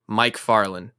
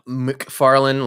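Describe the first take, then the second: First: The first syllable is said fully like 'Mike'. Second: The first syllable is reduced with no clear vowel. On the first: "but very very strict. M I C Farland" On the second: "like no no vowels"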